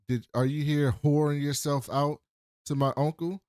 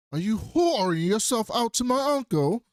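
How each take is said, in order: First: Said in the usual way. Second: "whoring" leaned on hard, high and loud, slow overall; hammed-up slow accusation landing on "whoring"; mock outrage, every word spaced out, peak on "whoring"; stress on whoring. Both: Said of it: "I just love the emphasis".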